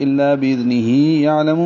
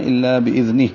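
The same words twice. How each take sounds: First: الا باذنہ یعلم linked, with long "hee" before "ya"; joined reading. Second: الا باذنہ ending on a silent-vowel "h", "bi-idhnih"; stopped reading. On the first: Teacher shows the reading when continuing, joined. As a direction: read باذنہ on into یعلم without doubling the ya. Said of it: "ملا کر پڑھنے کی صورت میں". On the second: Teacher shows the reading when pausing, stopped. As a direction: stop on باذنہ with a plain final h, no "hee". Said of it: "وقف کرنے کی صورت میں". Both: Shown as a demonstration.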